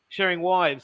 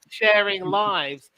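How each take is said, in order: First: The word begins with a W sound. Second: The word begins with a clear L sound. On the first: "he pronounces the L as a W" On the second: "he means sharing lives"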